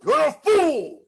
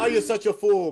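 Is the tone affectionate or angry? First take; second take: angry; affectionate. First: It sounds forceful, exclaimed and meant. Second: It sounds teasing and affectionate.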